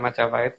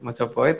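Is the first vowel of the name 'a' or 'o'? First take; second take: a; o. First: The first vowel sounds like 'a'. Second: The first vowel sounds like 'o'. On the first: The speaker calls it wrong. "bukan Majapahit" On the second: The speaker calls it right. "Mojopahit ada"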